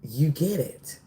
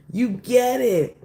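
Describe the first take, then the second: First: Said in the usual way. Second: YOU stressed, slower and higher; emphatic repeat. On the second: Shown as a demonstration. Reader telling the collective they've earned it, emphatic. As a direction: lean hard on You get it.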